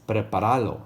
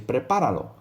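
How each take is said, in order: First: The stress falls on the third syllable. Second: The stress falls on the second syllable. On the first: The speaker calls it wrong. "if you didn't have it written there, you would say it like this" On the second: The speaker calls it right. "you got to put that accent over the A"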